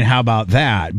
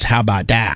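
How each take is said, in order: First: Said in the usual way. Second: "about" said as "a boot", Canadian style; Canadian accent. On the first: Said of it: "you're saying". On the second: Shown as a demonstration. Host demonstrating the Canadian way of saying it. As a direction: round the vowel in "about" like a Canadian. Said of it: "But it's".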